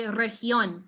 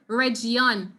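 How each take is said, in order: First: "región" with a soft h: rehión. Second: "región" with a zh sound, rezhión; wrong zh sound. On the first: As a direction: breathe the g in "región" as h. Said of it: "make sure you say región". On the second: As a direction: say "región" with an English-like zh. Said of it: "make sure you don't say something like". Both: Shown as a demonstration.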